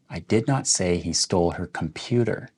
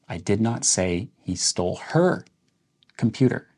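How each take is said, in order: First: The word computer carries the main stress. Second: The word her carries the main stress. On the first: He might have stolen something else of hers. "let's emphasize the word computer" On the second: He might have stolen someone else's computer. "Let's emphasize the word her"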